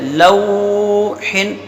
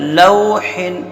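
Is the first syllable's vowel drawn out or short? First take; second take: drawn out; short. First: The first vowel is drawn out long. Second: The first vowel is kept short. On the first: The speaker calls it wrong. "ये नहीं पढ़ना है" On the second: The speaker calls it right. "बगैर खींचे पढ़ना है"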